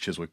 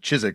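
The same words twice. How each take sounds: First: The name is said with the w sounded. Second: The name is said with the w silent. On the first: The speaker calls it wrong. "I always mispronounce it as Chiswick" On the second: The speaker calls it right. "but Chiswick stuff"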